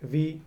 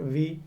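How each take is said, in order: The two takes are said the same way.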